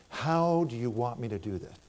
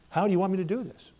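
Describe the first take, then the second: First: Said in the usual way. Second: Higher, faster, pleading How do you want me to do this; urgent plea. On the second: Retold or imitated. Preacher retelling his urgent prayer to God, pleading. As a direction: press the question to God with rising urgency.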